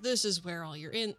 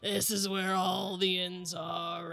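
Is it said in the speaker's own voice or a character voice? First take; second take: own voice; character voice. First: It is said in the speaker's own voice. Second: It is said in the character's put-on voice.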